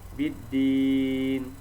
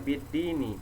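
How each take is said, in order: First: The word ends on the consonant sound. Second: The word ends with an extra vowel sound. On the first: The speaker calls it right. "diwakofkan atau disukunkan" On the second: The speaker calls it wrong. "jangan dibaca biddini"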